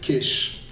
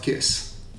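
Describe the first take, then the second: First: The name ends with an 'sh' sound. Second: The name ends with an 's' sound. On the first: The speaker calls it right. "you would pronounce it Kish, like an S H" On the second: The speaker calls it wrong. "not Kiss"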